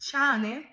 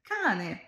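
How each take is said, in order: First: The first sound is soft, not a hard k. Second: The first sound is a hard k sound. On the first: The speaker calls it wrong. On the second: The speaker calls it right.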